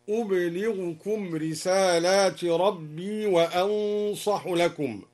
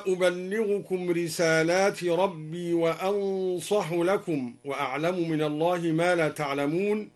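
First: أبلغكم as ublighukum, silent ba and a single lam, slow; no doubled lam in أبلغكم; light lam. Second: Said in the usual way. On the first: Shown as a demonstration. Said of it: "بإسكان الباء وتخفيف اللام". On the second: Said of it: "قوله تعالى".

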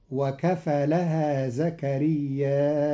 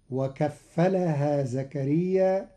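First: زكرياء with the long vowel drawn out, then a glottal stop and a final u; Qalun reading. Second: Said in the usual way. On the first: Shown as a demonstration. Teacher reciting Qalun's reading for his students, long vowel and hamza. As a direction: draw out زكرياء and close it on a hamza with u. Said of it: "فقرأه بالمد مهموزا مع الرفع". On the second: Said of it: "فقرأه بالمد مهموزا".

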